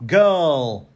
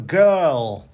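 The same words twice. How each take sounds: No difference in how they are said.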